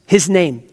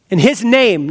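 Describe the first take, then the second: First: "his" leaned on, falling; "his name" with HIS stressed. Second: "his name" weighted; emphasis on "name"; stress on his name. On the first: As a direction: punch the word "his". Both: Shown as a demonstration. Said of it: "now you see the emphasis".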